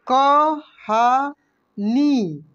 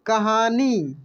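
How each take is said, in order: First: कहानी drawn out very slowly, syllable by syllable. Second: Said in the usual way. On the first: Shown as a demonstration. (कहानी को धीरे धीरे बोलिए) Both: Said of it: "इसके बाद देखेंगे यहाँ पे".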